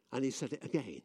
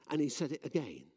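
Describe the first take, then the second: No difference in how they are said.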